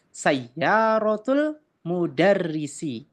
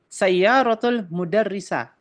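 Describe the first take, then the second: First: The last word ends in an i vowel. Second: The last word ends in an a vowel. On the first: The speaker calls it right. "Yang betul adalah" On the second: The speaker calls it wrong.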